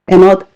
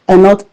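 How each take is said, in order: Both takes have the same delivery.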